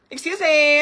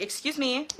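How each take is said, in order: First: Slow, laughing, indignant "Excuse me" stretched out. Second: Said in the usual way. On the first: Real, not acted. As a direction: drag out "Excuse me" with a scoffing laugh. Repeats excuse me, emphatic.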